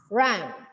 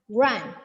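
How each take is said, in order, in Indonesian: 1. Vokalnya bunyi 'uh' yang terbuka. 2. Vokalnya bunyi 'uh' yang terbuka.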